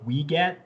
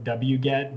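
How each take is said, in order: First: It begins with a short 'wee' sound. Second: It begins with the spelled-out letter name W. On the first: This is another pronunciation some people use. "there are other pronunciations out there on the internet like weget" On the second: This is the usual pronunciation. "so many of us pronounce it wget"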